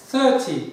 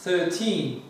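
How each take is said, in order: First: "Thirty" with a short, clipped "ty" and stress on "thir"; teacher demo of "Thirty" against thirteen; short ty ending. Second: Put-on "thirteen" with a stressed, long "teen" at the end; teacher demo of "thirteen" against thirty. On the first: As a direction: say "Thirty" so it ends in a quick t sound. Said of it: "T diye okunur". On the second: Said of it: "Bu da". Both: Shown as a demonstration.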